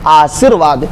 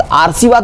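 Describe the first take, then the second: First: "आशीर्वाद" said aa-sheer-vaad, with r after shee; correct pronunciation. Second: "आरसीवाद" said aar-see-vaad, the wrong way; mock the mistaken "आरसीवाद" with an r before s; wrong pronunciation. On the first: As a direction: model the right "आशीर्वाद" with r after the sh. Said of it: "ये सही है". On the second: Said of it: "आरसीवाद नहीं word होता है". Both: Shown as a demonstration.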